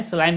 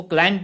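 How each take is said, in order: First: स्लाइम said with an s sound, slime; स्लाइम with s, the mistaken reading; wrong way. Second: क्लाइंब said with a hard k, klaimb; क्लाइंब starting with k, not s; right way. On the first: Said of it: "स्लाइम नहीं पढ़ते". (स्लाइम को स से, गलत उच्चारण) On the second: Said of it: "उसको क्लाइंब पढ़ते हैं". (क्लाइंब को क से बोलें) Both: Shown as a demonstration.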